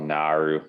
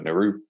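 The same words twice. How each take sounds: First: The R sound is strong, with a snarl. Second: The R sound is light and barely marked. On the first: The speaker calls it right. "Still a little snarl in there" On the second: The speaker calls it wrong. "We just kind of just go Naru, like a little kangaroo"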